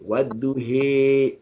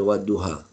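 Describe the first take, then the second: First: The final vowel is a mid 'e' sound. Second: The final vowel is an open 'a' sound. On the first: This is the imala kubra reading. "dia tengah-tengah. He" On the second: This is the common reading. "Dia tak baca macam kita wadduha"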